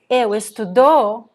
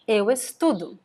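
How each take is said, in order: First: The stress falls on the final syllable. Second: The stress falls on the middle syllable. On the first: The speaker studied in the past. The speaker calls it wrong. "the stress at the end" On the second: I study. The speaker calls it right. "it's really important to have the stress in the middle here"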